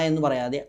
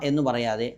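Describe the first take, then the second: The two takes are said the same way.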